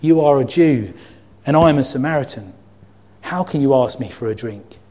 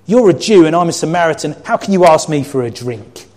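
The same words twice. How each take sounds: First: Calmer reading. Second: Loud, high, indignant; half-shouted shocked retort; shocked outburst. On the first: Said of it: "Same words". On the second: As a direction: fire it back in shock. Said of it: "I'm gonna reread it a different way". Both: Shown as a demonstration.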